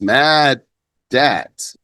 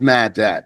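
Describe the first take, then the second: First: The middle d sound is held and doubled. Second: The middle d sound is short and single. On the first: The speaker calls it right. "It's mad dat" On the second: The speaker calls it wrong. "It's not mad dat"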